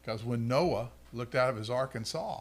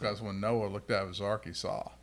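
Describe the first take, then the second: First: It is said with a smile at the end. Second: It is said flatly with a serious tone. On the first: The speaker calls it wrong. "If you didn't smile at the end of it, it would have been great" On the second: The speaker calls it right. "That was better"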